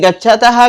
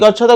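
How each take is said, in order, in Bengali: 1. শব্দটি একটি শ্বাসযুক্ত h ধ্বনি দিয়ে শেষ হয়। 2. শব্দটি কোনো h ধ্বনি ছাড়াই শেষ হয়। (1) "এইরকম উচ্চারণ" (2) "কিন্তু আমরা বাংলায় বলবো"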